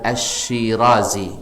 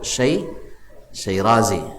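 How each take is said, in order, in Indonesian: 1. Nama ini dibuka dengan suku kata asy. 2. Nama ini dibuka dengan suku kata syai.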